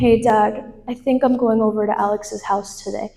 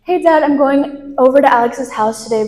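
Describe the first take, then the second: First: It is said with a sigh, sounding downcast. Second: It is said in a normal, casual tone.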